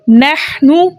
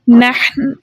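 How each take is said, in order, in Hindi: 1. शब्द छोटे 'उ' स्वर पर खत्म होता है। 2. शब्द बिना स्वर वाले 'न' पर खत्म होता है।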